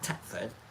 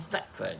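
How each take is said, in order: First: The name begins with a hard 't' sound. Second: The name begins with a soft 'th' sound. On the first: The speaker calls it wrong. "not Tetford" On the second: The speaker calls it right. "I'm going to say Thetford"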